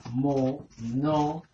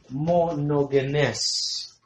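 First: "monogenes" very slow and softer, a pause after each syllable. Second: "Monogenes" stretched very slowly, long first syllable, then the rest joined; slow sounding-out. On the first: Preacher introducing a Greek word to the congregation, syllable by syllable. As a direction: split "monogenes" into four separate beats, mo-no-ge-nes. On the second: Preacher repeating the Greek term for the congregation, slowly sounded out. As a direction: draw out "Monogenes" for learners, holding the last syllable. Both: Shown as a demonstration.

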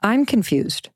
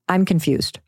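First: Whispered. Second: Said in the usual way. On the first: Shown as a demonstration. Mother repeating her key words to listeners, whispered. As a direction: breathe I'm confused as a hushed whisper. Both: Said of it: "the two most important words".

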